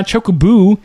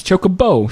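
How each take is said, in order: First: Chocoboo ending in a long "oo"; "boo" ending. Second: Chocobo ending in a long "oh". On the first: Co-host arguing the bird's name is wrong as Chocoboo, stressed "boo" ending. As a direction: say Chocoboo to rhyme with "shoe". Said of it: "it's not a boo". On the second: Co-host correcting the bird's name to Chocobo, stressed "bo" ending. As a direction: say Chocobo to rhyme with "show". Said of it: "So Choco Bogey". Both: Shown as a demonstration.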